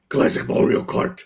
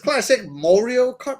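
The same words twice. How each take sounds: First: It is said in a put-on character voice. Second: It is said in a normal reading voice.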